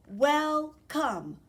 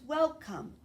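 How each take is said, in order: First: "Welcome" drawn out in two separate parts, wel, come; "Welcome" broken evenly into wel and come; split into syllables. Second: Said in the usual way. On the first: Shown as a demonstration. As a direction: say "Welcome" slowly, one beat per syllable. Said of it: "Two parts, two syllables". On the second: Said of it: "How many parts in a word?".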